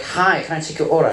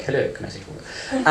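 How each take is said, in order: First: A chirpy imitation of an American cashier; lightly put-on American server voice; American accent. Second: A softer, flat imitation of an English cashier; mildly imitated English server voice; English accent. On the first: An American fast-food cashier greeting a customer, in a mock American accent. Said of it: "If you're in America". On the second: An English fast-food cashier greeting a customer, in a low-key English accent. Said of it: "if you're in England, they're like".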